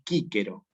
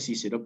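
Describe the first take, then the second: First: The word begins with a hard k sound. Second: The word begins with a soft s sound. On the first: This is the classical Latin pronunciation. "en latín clásico se pronuncia así como está escrito aquí" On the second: This is how the word is written. "Se escribe Cícero"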